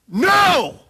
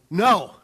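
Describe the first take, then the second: First: It is said loudly and forcefully. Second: It is said fairly mildly.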